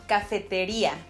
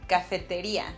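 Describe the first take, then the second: Both takes have the same delivery.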